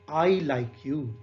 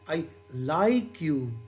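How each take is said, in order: First: The stress is on "I". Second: The stress is on "like".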